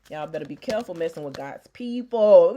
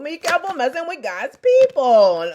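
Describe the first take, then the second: First: Said in the usual way. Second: Higher and louder warning. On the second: Real, not acted. Warning viewers off God's people, raised voice. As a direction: raise it into a sermon cry.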